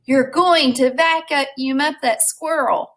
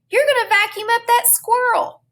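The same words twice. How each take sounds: First: Slow and deliberate, somewhat higher; slow, emphatic rereading. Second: High-pitched, frantic shout; shouted warning. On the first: Teacher rereads Flora's comic-bubble words, slow and emphatic. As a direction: spell out each word for dramatic weight. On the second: Flora warns of the vacuum from the window, shouted. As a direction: yell it high to stop a disaster. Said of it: "she shouted". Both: A narrator's reading.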